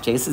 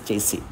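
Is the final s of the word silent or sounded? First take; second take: sounded; silent. First: The final s sound is pronounced. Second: The final s sound is left silent. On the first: The speaker calls it wrong. "but it is not chassis" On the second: The speaker calls it right. "the last S is not pronounced here"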